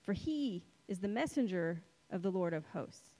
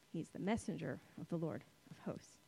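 First: Said in the usual way. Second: Quiet repeat. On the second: Real, not acted. Quietly repeats the verse to let it sink in.

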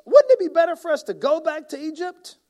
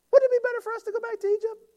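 First: High, loud mocking whine; hammed-up whine; mock complaint. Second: Very high, fast silly whine; cartoonish whining complainer; squeaky mock whine. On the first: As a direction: sneer it like a grumbler. Reading complaint as Israelites. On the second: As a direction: exaggerate the grumble into a squeak. Repeat in exaggerated voice.

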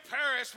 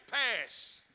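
First: "Paris" said in full, two syllables; standard pronunciation. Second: "pass" for Paris, one drawn-out syllable; local pronunciation. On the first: Preacher showing how locals don't say it, "Paris" in two full syllables. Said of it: "We don't say Paris". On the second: Preacher showing how locals say Paris, as one long "pass". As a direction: squash Paris into a slow "pass". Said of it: "we say pass". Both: Shown as a demonstration.

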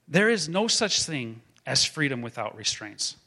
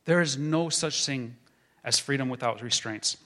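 No difference in how they are said.

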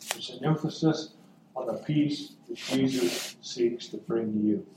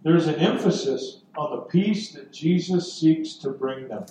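First: Much softer, lower delivery; hushed, personal. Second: Said in the usual way. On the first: Real, not acted. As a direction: drop to a near-whisper for the listener. Repeats it intimately to the listeners.

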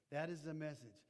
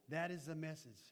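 The two takes are said the same way.

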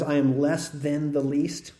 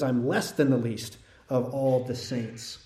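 First: "am" slightly lifted and leaned on, slow; stress on AM. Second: "less" вынесено ударением, фраза медленно; stress on LESS. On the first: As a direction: press the word "am" in a slow quote. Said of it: "you see it a little bit in English". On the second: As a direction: lean on "less" in a slow quote. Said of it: "He says, in fact". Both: Retold or imitated.

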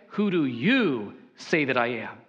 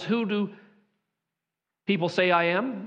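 First: "you" leaned on, the rest lower; stress on you. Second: Said in the usual way. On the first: Shown as a demonstration. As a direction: press hard on "you" to single out the listeners. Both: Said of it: "the plural pronoun you".

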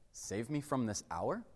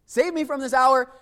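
First: "Save me from this hour" much softer, rising at "hour" like a question. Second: "Save me from this hour" cried out louder, ending with an exclamation; desperate exclamation. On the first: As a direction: ask it quietly, weighing it. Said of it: "in the form of a question". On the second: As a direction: cry it out as a desperate plea. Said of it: "With an exclamation point at the end". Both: Shown as a demonstration.

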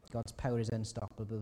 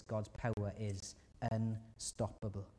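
First: Firmer. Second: Slow. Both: Shown as a demonstration. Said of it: "repeated point".

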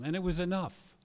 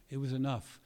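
First: Loud, higher, stressed "was"; emphatic declaration. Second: Said in the usual way. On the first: Real, not acted. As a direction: proclaim it, leaning on "was". Emphatic first statement.

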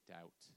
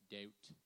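First: Said in the usual way. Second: Attempted British "Doubt", vowel shifted; British accent. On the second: Shown as a demonstration. Preacher cues congregation to copy him, mock British accent. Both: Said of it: "Now say it in your best British accent".

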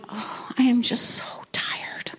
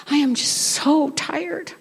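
First: Whispered sigh of tiredness; weary whisper. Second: Slow, worn-out repeat of the complaint; slow weary complaint. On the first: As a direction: breathe it out like you're exhausted. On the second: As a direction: drag out slowly and tired. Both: Retold or imitated. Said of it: "One of the things I found myself saying a lot is".

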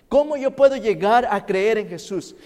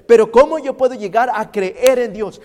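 First: Higher, louder preacher question; raised question. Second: High, loud preached question; louder question. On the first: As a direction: lift the question to the crowd. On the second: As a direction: push it out with force. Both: Acted.

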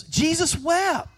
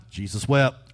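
First: "Jesus wept" lifted much higher and drawn out; Jesus wept slow and solemn. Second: Said in the usual way. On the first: Shown as a demonstration. Preacher turning the trivia answer into a solemn proclamation. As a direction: let "Jesus wept" ring out slow and high. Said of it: "All right, so". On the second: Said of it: "What's the shortest verse in the Bible?".

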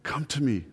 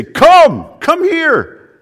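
First: Soft, tender call; loving invitation. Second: High, loud cry of warning; urgent parent's call. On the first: Jesus calling those he created, loving invitation. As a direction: invite gently and lovingly, much softer. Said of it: "it's said very lovingly". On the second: Parent seeing child about to get into danger, urgent shout. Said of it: "it's the idea of a parent". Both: Acted.

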